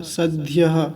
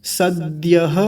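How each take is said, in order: First: सद्यः said with a doubled d, the way the teacher marks as wrong. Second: सद्यः with a single d and a falling end; correct सद्यः. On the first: Teacher demonstrating the wrong सद्यः for students. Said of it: "सद्यः गलत है". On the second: Teacher modelling the correct सद्यः for students. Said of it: "तो सद्यः". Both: Shown as a demonstration.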